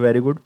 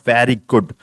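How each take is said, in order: First: Very good with a rising tune; bright, rising very good. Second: Very good with a falling tune; flat, falling very good. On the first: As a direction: lift the word good upward at the end. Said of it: "तो ये tone बदल गई". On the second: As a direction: let very good drop flatly at the end. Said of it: "देखो मैंने tone बदल दिया ना". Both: Shown as a demonstration.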